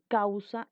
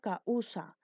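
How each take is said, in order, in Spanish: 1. Las dos vocales se unen en una sola sílaba. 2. Las dos vocales se separan en sílabas distintas. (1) "Una sola explosión de voz" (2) "Yo no digo causa"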